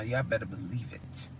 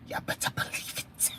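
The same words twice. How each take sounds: First: Low, soft promise; hushed aside. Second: Voiceless whispered repeat; playful whisper. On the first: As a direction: drop low and soft, confiding. Says it low, then whispers it. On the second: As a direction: whisper it to the chat, very softly. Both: Real, not acted.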